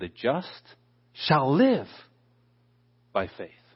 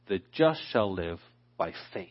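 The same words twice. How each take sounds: First: The stress is on the word live. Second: The stress is on the word faith.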